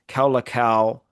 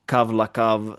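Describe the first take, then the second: First: The 'au' is said as an 'ow' vowel glide. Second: The 'au' is said as 'av' with a v-sound. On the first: This is the reconstructed ancient pronunciation. "Erasmian reconstructed pronunciation" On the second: This is the later vernacular pronunciation. "in later pronunciation"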